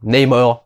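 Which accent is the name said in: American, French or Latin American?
American. The name is said with an American accent. This is how Americans say it. "si tu prononces à l'américaine"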